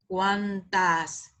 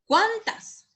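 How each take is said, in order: First: "Cuántas" low and even, falling, no question; unstressed "Cuántas", lower pitched and falling at the end; unaccented form. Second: "Cuántas" high and rising, CUAN punched; questioning "Cuántas" with a strong, high first syllable; accented question form. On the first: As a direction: draw "Cuántas" out low without punching CUAN. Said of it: "Porque hace la diferencia". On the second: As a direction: ask "Cuántas" sharply upward, much higher pitched. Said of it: "Cuando lleva acento". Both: Shown as a demonstration.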